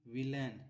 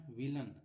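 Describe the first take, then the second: First: "विलेन" with a full ए vowel in the last syllable; spelling pronunciation. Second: "विलन" with a short schwa in the last syllable; short अ ending. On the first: Teacher reading the word off the board, "विलेन" with a clear ए. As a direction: say "विलेन" as spelled, ending in -lain. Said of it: "इसको विलन पढ़ते हैं". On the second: Teacher correcting the reading for students, "विलन" with a short अ. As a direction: say "विलन" ending in -lun, not -lain. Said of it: "यहाँ पर अ का उच्चारण हुआ है". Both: Shown as a demonstration.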